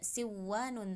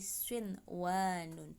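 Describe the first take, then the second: First: The n sound is merged into the w. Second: The n sound is pronounced clearly before w. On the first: The speaker calls it wrong. "tidak siwanun" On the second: The speaker calls it right. "tapi shinwanun"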